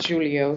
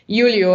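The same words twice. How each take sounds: First: The name begins with a J sound. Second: The name begins with a Y sound. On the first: The speaker calls it right. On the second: The speaker calls it wrong.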